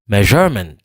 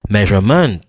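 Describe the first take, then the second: First: The stress is on the second syllable. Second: The stress is on the third syllable. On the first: "Si m'ta prononce je a plus fort que tout l'autre yo" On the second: "Si m'ta prononce maintenant plus fort que tout"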